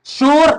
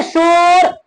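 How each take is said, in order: First: Said in the usual way. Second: शोर with the o stretched out long; wrongly drawn-out vowel. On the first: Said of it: "बिल्कुल सादा लफ्ज में बोल देना है". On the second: Shown as a demonstration. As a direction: drag out the o in शोर as a mistake. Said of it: "गलत हो जाएगा".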